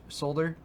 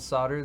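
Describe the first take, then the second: First: The word is said with an L sound. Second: The word is said without an L sound.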